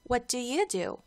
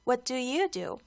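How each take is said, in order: Both takes have the same delivery.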